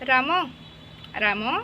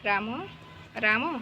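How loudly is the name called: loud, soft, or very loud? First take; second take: loud; soft. First: The name is called out fairly loudly. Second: The name is called softly and quietly. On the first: "ଏମିତି ଲାଉଡ଼ଲି ଡାକିଲ" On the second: "ଏମିତି ସଫ୍ଟଲି ଡାକିବ"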